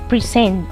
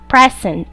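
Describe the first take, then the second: First: The stress is on the second syllable. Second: The stress is on the first syllable. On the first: It is used as a verb. "their stress changes to their second syllables" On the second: It is used as a noun. "pronounced making the stress in the first syllable"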